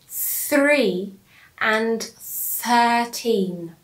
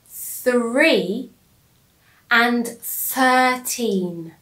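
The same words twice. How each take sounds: Both takes have the same delivery.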